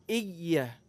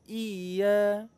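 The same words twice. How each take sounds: First: The vowel is kept short. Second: The vowel is drawn out long. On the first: The speaker calls it right. "Harusnya iya" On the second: The speaker calls it wrong. "Ada juga yang baca kayak ada mat di situ"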